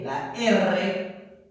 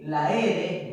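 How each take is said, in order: First: "la R" as "la erre", trilled; rolled R. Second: "La R" as "la ere", light tap; single-tap R. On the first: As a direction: say R as "erre", rolling the rr. Lists the rolled R letter. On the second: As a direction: say R as "ere", one tongue tap. Lists the single-tap R letter. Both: Shown as a demonstration.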